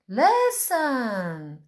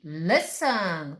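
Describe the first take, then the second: First: "Listen" stretched out, leaning hard on "Lis"; stress on first syllable. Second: Said in the usual way. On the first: Shown as a demonstration. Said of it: "Qual é a sílaba forte?".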